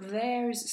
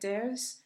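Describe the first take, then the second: First: The 'th' sound at the start is clearly pronounced. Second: The 'th' sound at the start is dropped.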